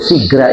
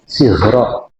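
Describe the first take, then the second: First: The word ends with an 'a' vowel. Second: The word ends with an 'o' vowel. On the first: The speaker calls it wrong. "itu dibaca buku Sigra" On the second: The speaker calls it right. "itu Sigro, artinya letik"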